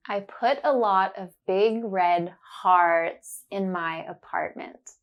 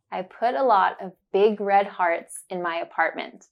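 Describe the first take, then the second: First: Slow careful sentence, leaning on the ah words; slow, focused on the sound. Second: Said in the usual way. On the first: Shown as a demonstration. Teacher slowly modelling the sentence for learners. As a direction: say it slowly, stressing hearts and apartment. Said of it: "I will say it slowly and focus on the sound". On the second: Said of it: "Then you will hear it naturally".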